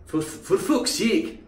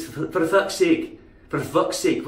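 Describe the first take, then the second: First: Slow, high "fucks" with a rounded "fook" vowel; mistaken Scottish pronunciation. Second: "fucks" with an open "uh" vowel, Scottish; corrected Scottish pronunciation. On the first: Speaker showing the wrong Scottish "fucks", fook vowel. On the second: Speaker correcting the Scottish "fucks", open uh vowel. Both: Shown as a demonstration. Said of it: "It's not like that".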